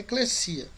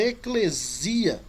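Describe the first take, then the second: First: The middle consonant is an s sound. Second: The middle consonant is a z sound. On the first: The speaker calls it right. "no grego, a pronúncia é eclesia. Nunca tem som de Z, sempre som de S S" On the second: The speaker calls it wrong. "a gente comete um, um grande erro"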